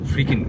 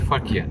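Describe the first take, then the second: First: The name is pronounced as Frikin. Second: The name is pronounced as Farkian. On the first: This is how the local people say it. The speaker calls it wrong. "এখানকার মানুষেরা সবাই বলছেন ফ্রিকিন" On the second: This is what the name actually is. The speaker calls it right. "এটা actually ফারকিয়ান"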